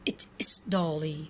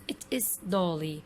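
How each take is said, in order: The two takes are said the same way.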